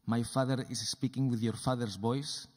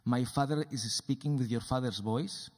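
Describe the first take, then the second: No difference in how they are said.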